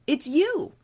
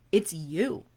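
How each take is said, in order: First: "It's you" with "you" pushed much higher; stress on YOU. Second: Said in the usual way. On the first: Shown as a demonstration. Coach telling a listener the dream client is her, stressed "you". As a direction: lift "you" high to point at the listener.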